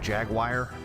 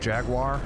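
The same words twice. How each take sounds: First: Jaguar is said in a local Pennsylvania way. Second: Jaguar is said in a standard American way. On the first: This is how people say it around here. The speaker calls it wrong. "it's Jaguar around here" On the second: This is the usual pronunciation elsewhere. The speaker calls it right. "Instead of"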